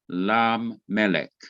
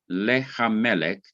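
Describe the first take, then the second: First: The h sound drops and its vowel moves forward. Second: The h sound of the article is pronounced. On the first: The speaker calls it right. "you will now say lam melech" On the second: The speaker calls it wrong. "instead of saying le hamelech"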